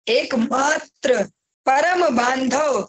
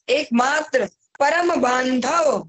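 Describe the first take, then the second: First: It is spoken slowly and deliberately. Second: It is spoken at a normal pace.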